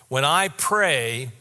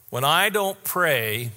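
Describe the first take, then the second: First: Slow "When I pray" leaning on "I"; stress on I. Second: Slow "When I don't pray" with weight on "I"; stress on I. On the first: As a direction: press the "I", unhurried. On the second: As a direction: lean on "I", unhurried. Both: Shown as a demonstration.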